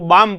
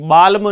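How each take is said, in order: First: The L sound is silent. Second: The L sound is pronounced. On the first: The speaker calls it right. "इसको बाम पढ़ेंगे" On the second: The speaker calls it wrong. "बाल्म नहीं"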